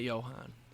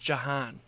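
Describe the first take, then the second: First: The first vowel sounds like 'o'. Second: The first vowel sounds like 'a'. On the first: The speaker calls it wrong. "It's not Johan" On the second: The speaker calls it right. "It's J A H A N. There's no O"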